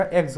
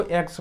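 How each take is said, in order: First: "एग्स" ending in a voiced z. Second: "एग्स" ending in a voiceless s. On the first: Teacher fixing the reading, "एग्स" with a z ending. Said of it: "इससे जा का sound निकलेगा". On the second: Teacher's first reading of the plural, "एग्स" with an s ending. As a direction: say "एग्स" as eks, with a hissed final s. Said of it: "गा का sound आ रहा है". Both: Shown as a demonstration.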